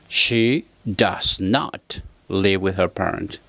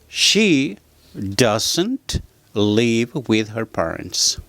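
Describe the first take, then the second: First: The negative is said as two full words. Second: The negative is contracted into one syllable, doesn't.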